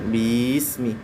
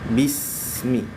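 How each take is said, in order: First: The vowel after the b is drawn out. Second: The vowel after the b is short and clipped. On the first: The speaker calls it wrong. "jangan dibaca bismi" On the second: The speaker calls it right. "tapi langsung bismi"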